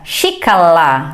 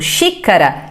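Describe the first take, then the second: First: The middle consonant is an L. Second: The middle consonant is a tapped R.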